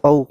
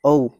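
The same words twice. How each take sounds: First: औ stretched long, अ gliding into ऊ; slow motion. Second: Said in the usual way. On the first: Shown as a demonstration. Teacher breaking down the vowel औ, in slow motion. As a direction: draw औ right out from अ to ऊ. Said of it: "औ को भी अगर हम slow motion में बोलें". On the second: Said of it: "अगर हम स्लो मोशन में बोलें".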